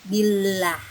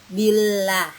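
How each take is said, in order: The two takes are said the same way.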